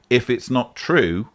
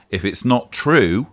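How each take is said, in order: Both takes have the same delivery.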